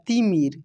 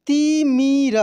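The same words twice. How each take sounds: First: Said in the usual way. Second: तिमिर drawn out as ti, mi, ra; syllable by syllable. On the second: Shown as a demonstration. Teacher reading for learners, तिमिर syllable by syllable. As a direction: stretch each syllable of तिमिर. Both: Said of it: "अब direct पढ़ते हैं".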